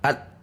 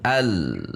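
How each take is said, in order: First: The sound is jerked and stops abruptly. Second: The sound is pressed and then falls away. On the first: The speaker calls it wrong. "juga tidak dihentak, al, langsung berhenti" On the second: The speaker calls it right. "al kemudian turun, al, turun"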